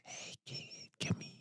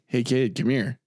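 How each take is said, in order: First: It is said in a strange, put-on voice. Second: It is said in a plain, ordinary voice.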